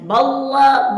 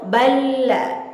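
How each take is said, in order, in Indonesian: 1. L-nya berat, tebal, dan tegang. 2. L-nya ringan, tipis, dan santai. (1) "Tidak boleh ditebal-tebalkan" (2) "Contoh yang benar"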